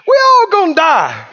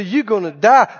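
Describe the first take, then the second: First: Defiant comeback. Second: Said in the usual way. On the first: Acted. Believer answering the threat of death, defiant. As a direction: throw it back as a loud-hearted scoff. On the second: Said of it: "And we say".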